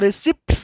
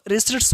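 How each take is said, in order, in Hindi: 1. 't' से पहले 'p' ध्वनि का उच्चारण होता है। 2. 't' से पहले 'p' ध्वनि का उच्चारण नहीं होता। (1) "इसको रिसिप्ट्स नहीं पढ़ेंगे, अर्थात पी का उच्चारण नहीं करेंगे" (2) "पी क्या होगा? साइलेंट रहेगा, तो रिसिट्स हो गया"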